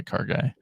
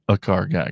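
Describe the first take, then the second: First: Breathy whispered repeat of car guy; whispered echo. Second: Said in the usual way. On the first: Shown as a demonstration. Echoing his own words about his brother in a whisper.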